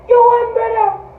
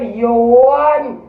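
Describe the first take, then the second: First: Much higher, mocking "You won, brother"; sarcastic high-pitched jeer; mock taunt. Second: Said in the usual way. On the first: Repeated taunt, second much higher.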